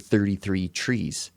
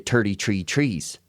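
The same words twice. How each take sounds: First: The th sounds are pronounced clearly. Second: The th sounds are pronounced like t. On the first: "all the kids used to say" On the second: "the Irish people can't really do their T H's all that well. So I'd say"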